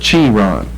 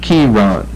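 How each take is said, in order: First: The word begins with a CH sound. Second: The word begins with a K sound. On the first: The speaker calls it wrong. "instead of" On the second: The speaker calls it right. "that's a K sound"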